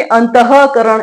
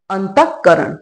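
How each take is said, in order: First: अंतःकरण said slowly with a full ह sound in the middle; wrong full visarga. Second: अंतःकरण with the visarga drawn inward, half sound; inward pulled visarga. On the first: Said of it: "ऐसा नहीं होता". (पूरा ह वाला गलत उच्चारण) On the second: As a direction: say अंतःकरण pulling the ः back into the throat. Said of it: "हाँ, अंदर की तरफ खींच गया". (अंदर खींचा हुआ उच्चारण) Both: Shown as a demonstration.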